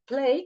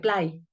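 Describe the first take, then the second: First: It is said with English pronunciation. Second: It is said with Spanish pronunciation. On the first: The word is kept as the source language says it. "agarro su palabra" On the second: The borrowing speaker adds their own sound system. "la voy a pronunciar como yo creo que se puede pronunciar de acuerdo con mi lengua"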